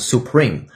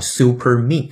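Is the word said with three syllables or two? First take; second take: two; three. First: The word has two syllables, ending in 'preme'. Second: The word has three syllables, like 'super me'. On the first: The speaker calls it right. "这个词一定读成Supreme" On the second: The speaker calls it wrong. "不是我们经常调侃的叫Super Me 啊，那个是错的"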